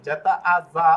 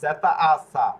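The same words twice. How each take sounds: First: জেতা আ read as যা with a voiced j sound. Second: জেতা আ read as সা with a hissed s sound. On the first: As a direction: say যা with a clear j, like "ja". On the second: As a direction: say সা with a clean s, like "sa". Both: Shown as a demonstration. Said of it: "একই বিষয় হচ্ছে দুই ধরনের উচ্চারণ করছে".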